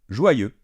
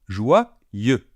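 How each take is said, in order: First: The word is said quickly. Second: The word is said slowly.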